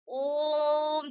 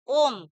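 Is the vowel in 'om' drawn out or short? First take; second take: drawn out; short. First: The vowel is drawn out very long. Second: The vowel is said short and plain. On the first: "जितना लंबा हम इसको खींचेंगे" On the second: "ऐसे बोल देंगे हम ओम"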